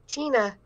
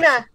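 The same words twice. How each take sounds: First: The name is said flatly, without passion. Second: The name is yelled with more passion.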